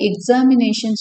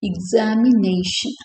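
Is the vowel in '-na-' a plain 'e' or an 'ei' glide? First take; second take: plain e; ei glide. First: The '-na-' vowel is a plain, steady 'e'. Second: The '-na-' vowel glides from 'e' to 'i'. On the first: The speaker calls it wrong. "எக்ஸாமினேஷன் சொல்லுவோம்" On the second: The speaker calls it right. "டிஃப்தாங் வந்துடும். எய்"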